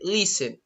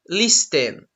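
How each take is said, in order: First: The T sound is not pronounced. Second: The T sound is clearly pronounced. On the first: The speaker calls it right. "you don't pronounce the T. The T is silence. You just say listen" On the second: The speaker calls it wrong. "You don't say listen. No, that's not correct"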